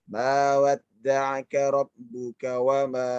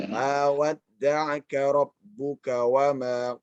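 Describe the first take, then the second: Both takes have the same delivery.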